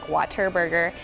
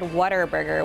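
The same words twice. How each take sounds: First: The middle consonant is a clear T sound. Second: The middle consonant is a D sound. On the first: "like with a T" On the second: "with a D as well"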